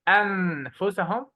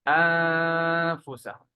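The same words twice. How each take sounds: First: The n is pronounced fully and clearly. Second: The n is hidden in a nasal hum. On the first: The speaker calls it wrong. "We don't say أنفسهم. It's not clear" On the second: The speaker calls it right. "Just remove the noon and do غنة"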